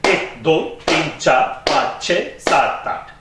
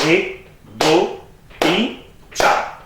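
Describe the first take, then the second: First: Double-speed counting. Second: Slow, even count; slow single-tempo counting. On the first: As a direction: count twice as fast to the beat. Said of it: "अब इसकी दुगनी गति क्या हो जाएगी?". (दुगनी गति में गिनती) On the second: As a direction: lay the count out slowly. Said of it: "पहले में कितना था?". (ठा लय में धीमी गिनती) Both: Shown as a demonstration.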